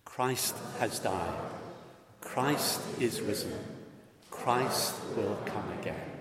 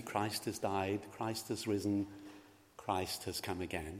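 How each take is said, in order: First: Slow, steady statement of faith; liturgical response. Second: Liturgy. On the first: Real, not acted. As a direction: lead the congregation in saying it together. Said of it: "Let us say it together as a statement". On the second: Shown as a demonstration. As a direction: read it softly as the priest's prompt. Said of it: "Let us say it together".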